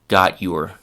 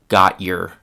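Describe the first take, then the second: First: The t and y are pronounced separately. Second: The t and y are pronounced separately.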